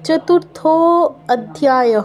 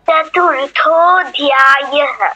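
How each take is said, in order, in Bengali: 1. শব্দ দুটো আলাদাভাবে বলা হয়, মেশানো হয় না। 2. শব্দ দুটো মিশে যায়, একটা স্বরবর্ণ বাদ পড়ে। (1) "নয় অটা বাদ যাবে" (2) "অটা বাদ ধ্যায়ः শুধু"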